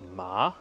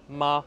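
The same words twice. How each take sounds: First: The pitch rises from middle to high. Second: The pitch stays high and level. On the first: "ton qui monte" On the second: "ton qui est élevé"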